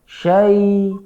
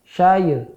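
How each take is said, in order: First: The syllable ends in a short 'ai' glide. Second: The syllable ends with an extra 'ya' sound. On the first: The speaker calls it right. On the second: The speaker calls it wrong.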